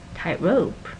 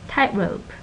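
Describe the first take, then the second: First: The stress is on rope. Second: The stress is on tight. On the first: It is a literal description of a rope. "the head is the rope... so the stress goes here" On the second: It is a compound with its own meaning. "When you have compound nouns, the stress goes on the first syllable"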